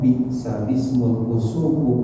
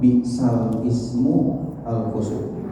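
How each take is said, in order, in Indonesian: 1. Huruf 'l' langsung menyambung ke 'ism' menjadi 'ismul'. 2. Artikel 'al' diucapkan sebagai suku kata yang terpisah. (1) "tapi dibacanya"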